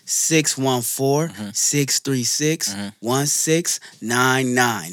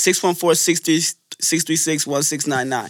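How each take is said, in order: First: The number is said slowly. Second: The number is said at a normal pace.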